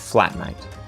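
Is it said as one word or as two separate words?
one word. It is said as one compound word. The person shares a home with you. "if I was using the word flatmate"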